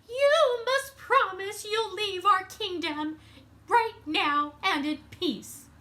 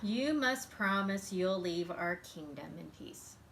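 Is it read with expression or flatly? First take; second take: expression; flatly. First: It is read with lively expression. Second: It is read flatly, without expression.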